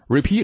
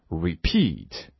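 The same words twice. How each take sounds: First: The stress is on the first syllable. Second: The stress is on the second syllable. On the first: The speaker calls it wrong. "而不是 repeat" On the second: The speaker calls it right. "这就是第二音节重读"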